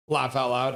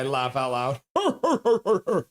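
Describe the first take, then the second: First: Said in the usual way. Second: Laughing. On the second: Real, not acted. Reading a funny chat message aloud, breaking into laughter.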